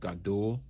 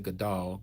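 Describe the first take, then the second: First: The vowel before the final L is 'oo'. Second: The vowel before the final L is 'ah'. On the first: The speaker calls it right. "Gadul with the U between the D and the L" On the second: The speaker calls it wrong. "I don't say Gadal"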